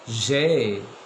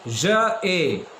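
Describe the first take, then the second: First: It is run together into one syllable. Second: It is said as two separate syllables.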